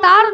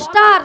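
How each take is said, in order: First: The word starts with a plain t sound. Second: The word starts with an s sound. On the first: The speaker calls it wrong. "আরে মাসি তার নয়" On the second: The speaker calls it right. "বলো স্টার"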